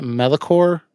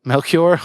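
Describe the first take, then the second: First: "Melikor" in three syllables, MEL-i-kor; tentative pronunciation. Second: "Melchior" echoed as MEL-kyor, rising like a check; corrected pronunciation. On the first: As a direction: guess at "Melikor" with a vowel after the L. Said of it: "how do you pronounce it". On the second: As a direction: repeat "Melchior" with a KY sound, as a question. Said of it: "Is that how you say it". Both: Shown as a demonstration.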